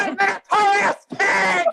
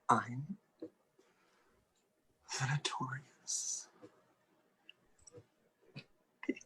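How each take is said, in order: First: It is said loudly and proudly. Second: It is said quietly.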